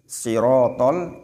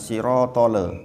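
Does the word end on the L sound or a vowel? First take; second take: L sound; vowel. First: The word ends cleanly on the L sound. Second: The word ends with an added vowel after L. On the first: The speaker calls it right. "sirotol bukan sirotole" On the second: The speaker calls it wrong. "bukan sirotole"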